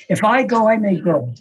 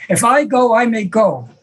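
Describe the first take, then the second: First: Said in the usual way. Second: Mildly louder, higher insistence; a touch louder the second time; louder repeat. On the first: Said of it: "He said". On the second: Retold or imitated. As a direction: say it again, pressing harder. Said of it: "He says it again louder".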